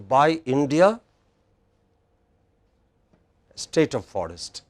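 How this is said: It is said with a short pause after India. The speaker calls it right. "that little pause would make the make it more meaningful"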